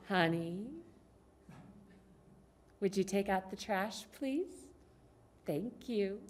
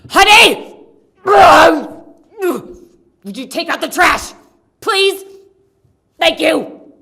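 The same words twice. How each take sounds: First: It is said in a sweet, inviting tone. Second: It is said in an angry, harsh tone.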